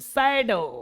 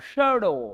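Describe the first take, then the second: First: The word begins with an 's' sound. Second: The word begins with a 'sh' sound. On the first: This is how the local people say it. "हम लोग क्या बोले? सैडो। लगता सैड बोलते हैं" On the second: This is how an English speaker says it. "था ऐसे बोलता शैडो"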